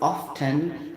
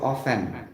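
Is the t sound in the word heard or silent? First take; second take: heard; silent. First: The t sound is pronounced in the word. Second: The t sound is left silent in the word.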